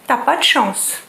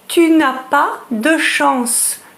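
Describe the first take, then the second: First: The phrase is reduced and the ne is dropped. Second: The phrase is said in full with the ne. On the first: "becomes t'as pas de chance" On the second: "tu n'as pas de chance becomes t'as pas de chance"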